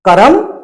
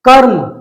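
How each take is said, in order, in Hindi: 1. र ध्वनि के बाद एक स्वर आता है। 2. र ध्वनि के बाद कोई स्वर नहीं आता। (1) "इसमें र के बाद आ की आवाज है" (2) "र में से आ की आवाज न आए"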